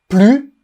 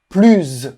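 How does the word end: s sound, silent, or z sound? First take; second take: silent; z sound. First: The final s is silent. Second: The final s is pronounced as z. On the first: "sans le S" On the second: "en faisant la liaison"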